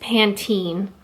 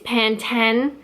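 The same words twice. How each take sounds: First: It uses the Canadian pronunciation. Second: It uses the English pronunciation. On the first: "and Canada, it's Pantene" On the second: "So England, it's Pantene"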